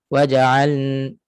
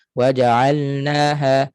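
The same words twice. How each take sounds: First: WAJA'AL with final L turned into N; lam becomes nun. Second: WAJA'ALNAHA chanted with L kept before N; clear lam. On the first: Teacher shows lam slipping into nun. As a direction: merge the L of waja'al into a humming N. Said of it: "dia masuk nun terus". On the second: Teacher contrasts readings of lam, clearly pronounced. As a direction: keep L distinct in waja'alnaha. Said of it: "laju sangat baca". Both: Shown as a demonstration.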